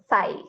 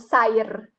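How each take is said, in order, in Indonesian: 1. Tidak ada bunyi R di dalam kata. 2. Ada bunyi R di akhir kata. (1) "tetap dibacanya sai" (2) "atau sair"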